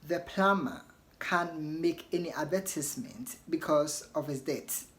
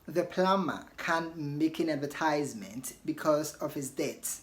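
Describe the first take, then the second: First: It is said in a British accent. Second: It is said in an American accent. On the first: "So in British you want to say" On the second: "That is in American"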